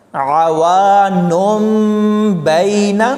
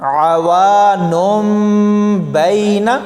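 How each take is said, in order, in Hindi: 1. b से पहले m की आवाज़ आती है। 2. b से पहले m की आवाज़ आती है।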